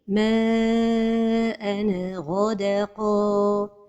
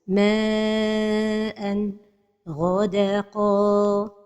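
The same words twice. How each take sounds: First: The n gets a bouncing echo. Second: There is a pause after the n. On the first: "c'est القلقلة de النون de التنوين" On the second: "c'est la pause"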